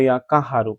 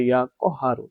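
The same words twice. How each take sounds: First: কাহারু with an open "kaa" first; Bengali-style mispronunciation. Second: কহারু with a short rounded "ko", not "kaa"; correct pronunciation. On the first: Preacher showing how many people say it, Bengali-style mispronunciation. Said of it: "কাহারু হলো Bangla". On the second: Preacher correcting the common form, correct pronunciation. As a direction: say ইয়া কহারু as "ko-HAA-ru". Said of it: "এটা শুদ্ধ উচ্চারণ হবে". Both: Shown as a demonstration.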